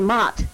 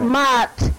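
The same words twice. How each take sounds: First: The vowel is short and plain. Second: The vowel is drawn out and lengthened. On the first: It sounds neutral, less affectionate. "just plain Mott" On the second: It sounds more affectionate. "You kind of draw it out. Draw it out. Mott sounds a lot more affectionate"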